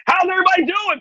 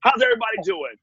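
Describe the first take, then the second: First: Much higher and a bit louder, big energetic call on everybody; hyped crowd greeting. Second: Said in the usual way. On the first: Shown as a demonstration. Host demonstrating the Nickelodeon crowd trick, pumped-up call. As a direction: throw it out to the whole room with full showman energy. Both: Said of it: "No, no, this is old Nickelodeon trick".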